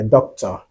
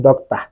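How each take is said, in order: First: Said in the usual way. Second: Slow "doctor" with an open "ah" ending; Ghanaian-style "doctor", final "-or" turned to "ah"; Ghanaian pronunciation. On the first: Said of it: "Or you want to say a doctor". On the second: Shown as a demonstration. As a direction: say "doctor" as "dok-tah". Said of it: "you are saying doctor".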